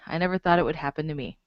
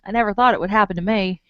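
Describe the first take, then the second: First: It is read in the speaker's plain accent. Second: It is said in a put-on southern drawl.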